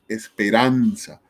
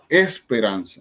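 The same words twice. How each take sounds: First: The stress falls on the syllable ran. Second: The stress falls on a syllable other than ran. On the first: The speaker calls it right. "Decimos esperanza" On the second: The speaker calls it wrong. "No decimos esperanza"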